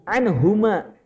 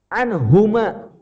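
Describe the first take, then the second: The two takes are said the same way.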